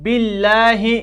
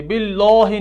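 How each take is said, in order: First: बिल्लाहि with a thin, light लाम and open a; correct thin lam. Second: बिल्लाहि with a thick, heavy लाम and rounded vowel; wrong heavy lam. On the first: Teacher gives students the right thin lam in बिल्लाहि. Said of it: "बल्कि". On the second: Teacher shows students the wrong heavy lam in बिल्लाहि. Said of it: "बिल्लाहि नहीं पढ़ेंगे". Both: Shown as a demonstration.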